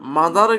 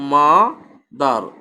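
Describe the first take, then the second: First: The word is said smoothly without a break. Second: A short pause separates the two syllables.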